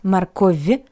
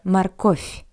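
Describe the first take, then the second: First: The final consonant sounds like a voiced v. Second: The final consonant sounds like a voiceless f. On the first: The speaker calls it wrong. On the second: The speaker calls it right. "sounds like a paired voiceless consonant f"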